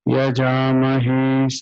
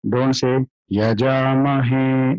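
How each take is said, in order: First: "Yajamahe" on one level pitch, no rise; flat. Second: "Yajamahe" with a rising tune, the wrong way; wrong intonation. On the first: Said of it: "flat it is". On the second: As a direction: show "Yajamahe" with the pitch going up. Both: Shown as a demonstration.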